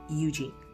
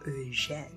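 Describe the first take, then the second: First: The name is said with English pronunciation. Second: The name is said with French pronunciation. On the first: "my name in y'all language, English, is [name]" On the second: "the way it's supposed to be said, because it's Haitian, or you could say French"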